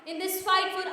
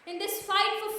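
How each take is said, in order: Both takes have the same delivery.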